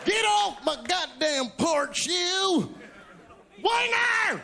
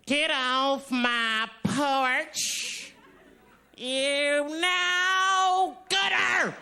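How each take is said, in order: First: Put-on high yelling old man off the porch; shouting at trespasser. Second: Slow drawn-out yell at trespasser; shouting at trespasser. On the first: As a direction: bark it at a trespasser. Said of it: "use it in a sentence for me". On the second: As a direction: stretch it out, then yell. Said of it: "Let me, let me try". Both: Shown as a demonstration.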